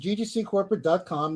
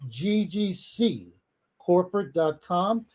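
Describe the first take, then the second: First: It is said at a normal pace. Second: It is said more slowly.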